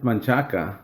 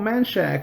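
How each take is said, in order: First: The name is said with three syllables, ending in 'a'. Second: The name is cut short to two syllables. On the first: The speaker calls it right. "It's Manchaca" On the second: The speaker calls it wrong. "And they're like, oh, Manchac or whatever"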